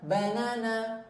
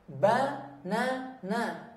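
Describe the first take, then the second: First: The syllables run together as one smooth word. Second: Each syllable is said separately with small breaks. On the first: "boleh langsung" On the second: "dieja dulu"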